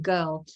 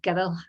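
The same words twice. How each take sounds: First: It is said in a Southern English accent. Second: It is said in a Glaswegian accent.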